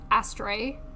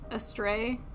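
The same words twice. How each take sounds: First: The word sounds like 'ass tray'. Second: The word does not sound like 'ass tray'. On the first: The speaker calls it wrong. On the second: The speaker calls it right.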